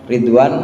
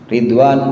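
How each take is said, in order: The two takes are said the same way.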